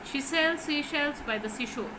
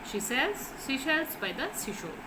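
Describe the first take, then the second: Both takes have the same delivery.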